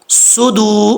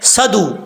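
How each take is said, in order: First: The first vowel is a short u. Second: The first vowel is a short a. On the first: The speaker calls it right. "स्वाद के ऊपर पेश है सु" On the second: The speaker calls it wrong. "स्वाद के ऊपर ज़बर पढ़ देते हैं। ऐसा नहीं पढ़ना।"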